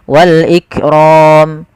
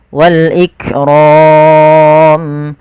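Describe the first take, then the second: First: The final long vowel is held briefly. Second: The final long vowel is held moderately long. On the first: "dua harokat" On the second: "empat harokat"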